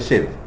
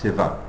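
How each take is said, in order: First: The final vowel is dropped, ending on v. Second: The final vowel is pronounced after the v. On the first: This is the North Indian way of saying it. "In North India they say Shiv" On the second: This is the Sanskrit way of saying it. "But in Sanskrit it's Shiva"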